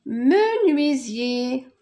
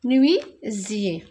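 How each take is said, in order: First: Menuisier slow and clear, each syllable apart; slow model word. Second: Menuisier again slowly, falling at the end; slow repeat. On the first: Teacher modelling menuisier slowly after its syllables. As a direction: draw out menuisier for the class. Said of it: "Nuit, me". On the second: Teacher repeating menuisier slowly to confirm it. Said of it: "teacher repeats word". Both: Shown as a demonstration.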